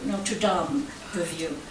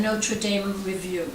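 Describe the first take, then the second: First: Dame said as "dahm", French style; softer, lower Notre Dame with Dame as "dahm"; French-style pronunciation of Dame. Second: Dame said as "daym", English style; English pronunciation of Dame. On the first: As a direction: say Dame with an open "ah" vowel. Repeats name with other pronunciation. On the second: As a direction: say Dame to rhyme with name. Intro reader gives two pronunciations. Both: Real, not acted.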